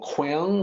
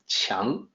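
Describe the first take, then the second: First: The word begins with a hard kw sound. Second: The word begins with a ch-like sound. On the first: The speaker calls it wrong. "people will look at that as Kyung or Kwang" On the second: The speaker calls it right. "the Q sounds like C H, so it's actually more like 强"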